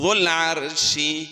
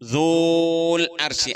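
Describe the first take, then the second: First: The first vowel is kept short. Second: The first vowel is drawn out long. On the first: The speaker calls it right. "അപ്പൊ എന്ന് വായിക്കണം" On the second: The speaker calls it wrong. "അങ്ങനെയല്ലോ ഓതുക, ... നീട്ടാൻ പാടണ്ട"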